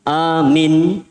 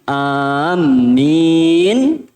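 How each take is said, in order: First: The first vowel is long, the second short. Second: The m sound is doubled and held. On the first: A command to believe. "A-nya dua, minnya satu" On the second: People who are walking. "Kalau mimnya ditasydid"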